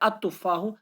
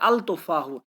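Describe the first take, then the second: First: The 'l' sound is silent before the 't'. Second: The 'l' sound is pronounced before the 't'. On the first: This is how the word is read aloud. The speaker calls it right. "लेकिन पढ़ते हैं अतुफाहु, लाम को साइलेंट करते हैं" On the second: This is how the word is written. The speaker calls it wrong. "हम लिखते हैं अल तुफाहु"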